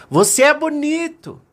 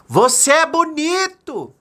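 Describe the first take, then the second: First: High ringing call; acted high, carrying returned call; mountain echo. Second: High, slow drawn-out shout; acted long, high call. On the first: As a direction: echo the shout back from the mountain. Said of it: "a montanha devolveu". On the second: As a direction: holler a compliment across the mountains. Father calls out into mountains. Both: A narrator's reading.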